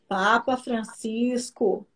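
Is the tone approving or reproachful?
reproachful. It is said in a stern, reproachful tone. Behave yourself, do not look at her. "Aí subiu o anjinho e falou assim para ele"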